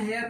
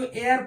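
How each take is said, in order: First: The word starts with an h sound. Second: The word starts with no h sound. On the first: The speaker calls it wrong. "हेयर नहीं पढ़ते" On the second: The speaker calls it right. "इसको एयर पढ़ते हैं"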